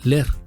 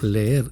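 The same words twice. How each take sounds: First: The e sounds merge into one. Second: Two separate e sounds are heard. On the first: This is how someone else said it. The speaker calls it wrong. "él decía leer" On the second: This is the normal form of the verb. The speaker calls it right. "no pronunciaba leer como verbo"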